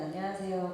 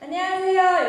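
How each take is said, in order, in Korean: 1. 인사는 자연스러운 낮은 톤으로 말합니다. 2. 인사는 톤을 올려서 더 높게 말합니다. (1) "배우로 인사할 땐" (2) "팀으로 할 때는 안녕하세요 이렇게 바로 이제 톤이 이제 올라가죠"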